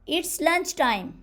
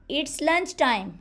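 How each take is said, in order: The two takes are said the same way.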